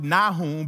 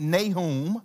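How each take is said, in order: First: Nahum with "nah" as first syllable; others' pronunciation. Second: Nahum with "nay" as first syllable; southern pronunciation. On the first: Preacher showing how some people pronounce it, Nahum said "NAH-hum". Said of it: "some people pronounce it Nahum". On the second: Preacher choosing his southern accent's version, Nahum said "NAY-hum". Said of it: "in my southern accent". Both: Shown as a demonstration.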